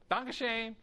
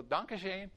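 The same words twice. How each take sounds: First: "Danke schön" again, higher and louder, for a neighbor who did not understand; repeated louder. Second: A light German "Danke schön" said to the neighbor; first try at "Danke schön", friendly and casual; German greeting. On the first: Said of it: "And he goes, "What?". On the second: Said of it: "and you go". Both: Retold or imitated.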